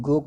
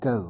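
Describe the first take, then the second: First: "go" said the common, simple way; everyday pronunciation. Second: "go" as a glide of ग and ओ; real pronunciation. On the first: Teacher quoting how people generally say it, "go" in its everyday form. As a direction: say "go" with one plain O vowel. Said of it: "हम लोग generally go कहते हैं". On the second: Teacher showing learners the real sound, "go" as a ga-o combination. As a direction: say "go" as ga-o run together. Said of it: "real उच्चारण होता है ग ओ का combination". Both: Shown as a demonstration.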